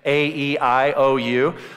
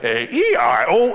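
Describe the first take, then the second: First: It is said in a nice, normal voice. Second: It is said in an intense, demonic robot voice.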